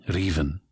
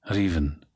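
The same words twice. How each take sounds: The two takes are said the same way.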